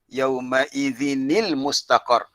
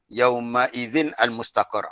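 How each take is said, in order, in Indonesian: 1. Huruf n disambung dengan kata berikutnya dengan i. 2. Huruf n berhenti sebelum al yang berdiri sendiri. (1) "jadi yauma idzini" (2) "tu salah"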